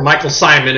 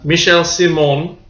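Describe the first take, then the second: First: The name is said in an American way. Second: The name is said in a French way.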